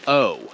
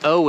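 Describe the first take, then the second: First: O stretched into "oh-oo"; a long gliding "oh" for O; stretched English O. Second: O as a brief "aw"; short open "aw" for O. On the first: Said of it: "like we're stretching it out". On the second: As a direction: clip O to a plain "aw". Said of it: "the O is very short". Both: Shown as a demonstration.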